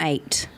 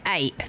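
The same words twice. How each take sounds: First: The final T sound is clearly pronounced. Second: The final T sound is dropped. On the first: "not eight" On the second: "without pronouncing the T"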